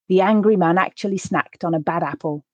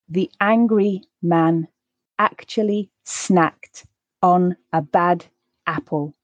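First: The sentence is read at a faster, natural pace. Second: The sentence is read at a slow pace. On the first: "then I'll read it at a more natural pace" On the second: "I'll read the sentence once at a slower pace"

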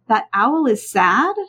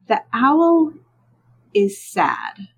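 First: The voice rises at the end, a question. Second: The voice falls at the end, a statement.

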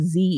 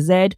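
First: The letter is said as zee, American style. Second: The letter is said as zed.

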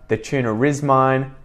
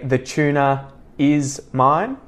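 First: An R sound links tuna and is. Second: No R sound links tuna and is. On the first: The speaker calls it right. "we put that R in to make it flow better" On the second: The speaker calls it wrong. "It sounds weird to say the tuna is mine"

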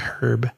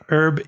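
First: British accent, the h is pronounced. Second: American accent, the h is silent.

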